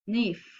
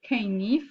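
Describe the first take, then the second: First: The word starts with an N sound. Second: The word starts with a sounded K. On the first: The speaker calls it right. "we pronounce nif because the letter K is invisible" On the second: The speaker calls it wrong. "we don't pronounce canif"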